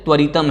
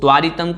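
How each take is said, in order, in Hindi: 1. 'tv' के बाद का स्वर ह्रस्व है। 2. 'tv' के बाद का स्वर दीर्घ है। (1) "त्वरितम है वह" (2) "त्वारितम को शुद्ध कर लें"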